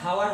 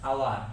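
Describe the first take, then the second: First: The word begins with an audible h sound. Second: The word begins directly with a vowel sound. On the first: The speaker calls it wrong. "এখানে হাওয়ার হবে না" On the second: The speaker calls it right. "এটার উচ্চারণ হবে আওয়ার"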